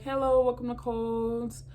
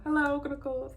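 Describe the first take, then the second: First: Cheery store greeting; cashier greeting. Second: Higher, rote cashier greeting; tired bored cashier. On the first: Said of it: "just be like". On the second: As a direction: say it like the thousandth time today. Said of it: "I used to say that all the time". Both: Retold or imitated.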